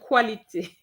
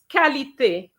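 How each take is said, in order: First: The word begins with a kw sound. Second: The word begins with a plain k sound. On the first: The speaker calls it wrong. "but now you're saying quality" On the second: The speaker calls it right. "It's qualité, la qualité"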